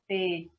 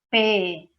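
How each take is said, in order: First: The consonant is said softly, without tension. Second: The consonant is said tensely, with strong force. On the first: The speaker calls it wrong. "não P" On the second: The speaker calls it right. "falar com bastante força"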